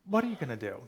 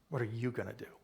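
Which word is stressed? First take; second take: What; you. First: The stress falls on the word what. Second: The stress falls on the word you. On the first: The focus is on which action to take. "everyone's focused on what?" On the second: The focus is on the listener's own part. "the secret to the sentence is a little further down in the third word"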